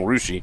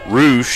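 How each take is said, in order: First: The name ends with an added ee sound. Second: The name ends on the sh sound. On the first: The speaker calls it right. "Got to remember to say that uh, that E" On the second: The speaker calls it wrong. "I'm saying it wrong"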